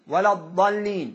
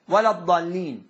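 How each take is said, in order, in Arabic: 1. الحركة بعد الحرف الأول تُقصَر. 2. الحركة بعد الحرف الأول تُقصَر.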